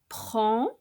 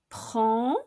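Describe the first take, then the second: No difference in how they are said.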